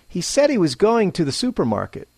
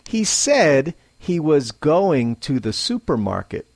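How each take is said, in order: First: Normal pace, with the small words reduced. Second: Slow, with every small word said in full. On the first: The speaker calls it right. "at a normal pace" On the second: The speaker calls it wrong. "slowly, clearly, and less naturally"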